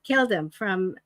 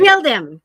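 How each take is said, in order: First: Said in the usual way. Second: Louder, blurted confession; emphatic blurt. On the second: Real, not acted. Confessing to fans, a loud ashamed blurt.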